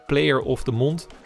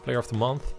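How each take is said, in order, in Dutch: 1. 'Month' eindigt op een d-klank, zoals 'mond'. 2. 'Month' eindigt op een Engelse th-klank.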